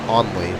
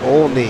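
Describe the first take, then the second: First: The name is said without an L sound. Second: The name is said with an L sound. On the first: The speaker calls it wrong. "I believe you're saying Only" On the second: The speaker calls it right. "O L N E Y"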